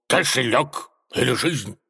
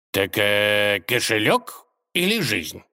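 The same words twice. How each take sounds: First: Menacing demand, pitched up; threatening. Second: Mildly musing, unhurried repeat question; calm query. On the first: Robber advancing on the tsar, threatening. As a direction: threaten him like a storybook bandit. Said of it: "угрожающе двинулся на него разбойник". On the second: Tsar asking the robber to repeat, calm. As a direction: check calmly which one is meant. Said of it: "спокойно переспросил царь". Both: A narrator's reading.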